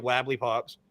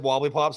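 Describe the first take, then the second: First: "Wabbly" said with a flat A in place of the O. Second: Said in the usual way. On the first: Shown as a demonstration. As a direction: say "Wabbly" to rhyme with "scrabbly". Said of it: "I put an A in front of everything". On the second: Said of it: "So you said wobbly pops".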